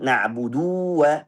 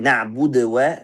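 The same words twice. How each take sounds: First: The vowel after the d is held long. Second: The d is stopped with a bouncing release. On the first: "ada yang baca panjang" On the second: "baca dengan qalqalah sukun"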